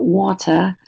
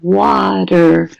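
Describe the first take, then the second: First: It is said in a British accent. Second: It is said in an American accent. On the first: "in British English, for example, they're going to say water" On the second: "in American English, you're going to have water"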